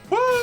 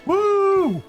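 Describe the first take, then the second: First: A woo like a train whistle. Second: A longer, drawn-out woo.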